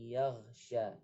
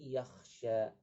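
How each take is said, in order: First: The middle consonant is a voiced gh sound. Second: The middle consonant is a voiceless kh sound. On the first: It means covers. The speaker calls it wrong. "yaghsha menggunakan ghain" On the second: It means fears. The speaker calls it right. "yang benar adalah sayadzakkaru may yakhsha menggunakan kha"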